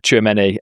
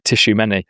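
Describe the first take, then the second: First: The name starts with a 'chwa' sound. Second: The name starts with a 'tishoo' sound. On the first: The speaker calls it right. "I'm saying that now because I, I said his name how Andy pronounced it just earlier" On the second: The speaker calls it wrong. "suggestion was that I'd said it Tishumeni, uh, which is not what you want to be calling a player"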